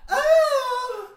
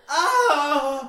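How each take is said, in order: First: The scream is higher in pitch. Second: The scream is lower in pitch.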